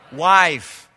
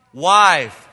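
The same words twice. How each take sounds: First: Loud emphatic WIFE; a firm, loud "Wife". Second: "Wife" called out even louder; shouted with the crowd; louder still. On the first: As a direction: call out "Wife" with the crowd. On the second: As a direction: boom out "Wife". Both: Shown as a demonstration. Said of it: "Let's say it again".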